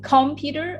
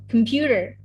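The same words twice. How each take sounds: First: Computer said as COM-puter; stress on first syllable. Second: Computer said as com-PU-ter; stress on second syllable. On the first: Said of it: "the stressful thing?". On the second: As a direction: hit the PU in computer. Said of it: "the second syllable stress is on computer". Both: Shown as a demonstration.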